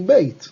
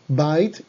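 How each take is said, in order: First: The vowel sounds like 'ay'. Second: The vowel sounds like 'eye'. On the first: The word is joined to a following word. "cuando va acompañada se convierte en beit" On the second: The word stands on its own. "Aquí es bait cuando va sola"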